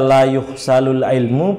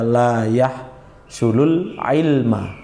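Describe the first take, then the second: First: The verb is pronounced yuhsalu, ending in ilmu. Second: The verb is pronounced yahsulu, ending in ilma. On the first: "Kalau kita baca la yuhsalul ilmu, maka passive voice" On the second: "bisa dibaca la yahsulul ilma"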